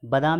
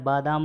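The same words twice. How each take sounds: First: बादाम as "ba-daam", first a short; wrong short vowel. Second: बादाम as "baa-daam"; long first vowel. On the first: Teacher showing the error, short "ba" in बादाम. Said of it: "नहीं होता है". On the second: Teacher correcting students, long "baa" in बादाम. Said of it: "होता है". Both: Shown as a demonstration.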